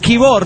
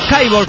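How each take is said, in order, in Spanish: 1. La primera vocal suena como 'ee'. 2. La primera vocal suena como 'eye'. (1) "se pronuncia Kibor" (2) "no Kaibor, como dices tú"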